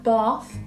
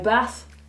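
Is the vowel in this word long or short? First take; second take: long; short. First: The vowel is a long open 'ah' sound. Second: The vowel is a short 'a' as in apple. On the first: "In RP, you would say words like bath" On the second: "in Birmingham, we say bath"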